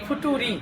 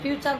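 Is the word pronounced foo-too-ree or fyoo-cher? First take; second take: foo-too-ree; fyoo-cher. First: It is said as foo-too-ree, three syllables. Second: It is said as fyoo-cher, two syllables. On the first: The speaker calls it wrong. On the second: The speaker calls it right.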